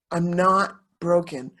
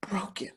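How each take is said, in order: First: Said in the usual way. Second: Barely voiced, choked up; a real, fragile whisper; whispered, emotional. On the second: Real, not acted. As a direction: breathe the word out in a whisper. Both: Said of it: "I might get a little emotional here".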